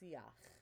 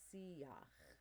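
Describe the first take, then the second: First: No 'ya' sound; the 'ah' glides into 'ch'. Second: A clear 'ya' sound is in the middle. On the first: The speaker calls it right. "Whereas this is siach. We're really aiming for the ah to the ch" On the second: The speaker calls it wrong. "I should not hear siach. There's more of a ya in the middle of that"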